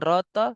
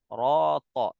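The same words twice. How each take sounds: First: The r syllable sounds lighter, not fully heavy. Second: The r syllable sounds fully heavy and thick. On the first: The speaker calls it wrong. "Jangan roto" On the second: The speaker calls it right. "tebal sempurna"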